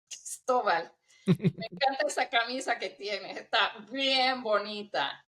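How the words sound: It is said in a mocking, sarcastic tone.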